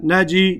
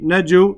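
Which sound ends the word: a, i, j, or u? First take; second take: i; u. First: The word ends with an added i vowel. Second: The word ends with an added u vowel. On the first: The letter carries a kasra. "I don't say" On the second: The letter carries a dhamma. "I don't say"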